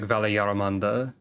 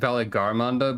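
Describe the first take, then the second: First: No g sound is heard in the middle. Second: A g sound is heard in the middle. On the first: The speaker calls it right. "they're pronouncing it more like Valiarmanda, which is probably more accurate" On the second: The speaker calls it wrong. "I've been saying like Valigarmanda"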